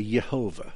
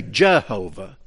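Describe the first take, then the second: First: Yehovah said with a soft Y sound at the start, not a J; Hebrew pronunciation. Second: Said in the usual way. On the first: Shown as a demonstration. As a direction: say Yehovah as Ye-ho-vah, beginning with Y. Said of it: "how they would pronounce it". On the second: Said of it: "but that's not what they would say".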